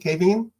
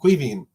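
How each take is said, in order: First: The name starts with a plain K sound. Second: The name starts with a KW sound. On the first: The speaker calls it wrong. "Is that how you say it?" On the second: The speaker calls it right. "I just got to get the que right"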